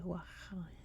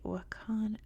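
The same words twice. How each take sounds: First: The name is said closer to the local Afghan pronunciation. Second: The name is said with an American English pronunciation. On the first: "in Afghanistan it would be closer to Wakhan" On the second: "that's how we pronounce it in English"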